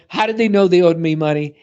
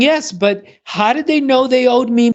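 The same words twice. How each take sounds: First: Said in the usual way. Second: Higher, insistent imitation of an elderly client; elderly client insisting. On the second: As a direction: mimic the old lady pressing her point, pitched up. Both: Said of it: "And she's saying".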